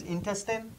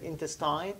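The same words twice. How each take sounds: First: "intestine" ending in a short -tin; "intestine" rhyming its end with "tin"; correct pronunciation. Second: "intestine" ending like "tine"; "intestine" with its end rhyming with "sign"; mistaken pronunciation. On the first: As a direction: say "intestine" with last syllable like "tin". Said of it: "Actually, pronunciation is intestine". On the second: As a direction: say "intestine" with a long i in the last syllable. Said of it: "say it by mistake". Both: Shown as a demonstration.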